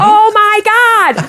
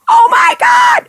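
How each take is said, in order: First: High, slow "Oh my God!", echoing the crowd back; mock copy of the fans. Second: High, loud cry of "Oh my God!"; fans screaming. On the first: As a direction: copy the fans' cry, drawn out and high. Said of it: "And I'm like". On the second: Retold or imitated. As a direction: shriek "Oh my God!" like a fan in the crowd. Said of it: "the fans are going".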